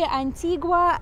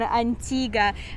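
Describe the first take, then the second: First: It is pronounced the Spanish-style way. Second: It is pronounced the local island way. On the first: "as in a Spanish version of it" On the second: "This is the local pronunciation"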